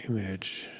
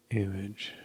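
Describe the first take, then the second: No difference in how they are said.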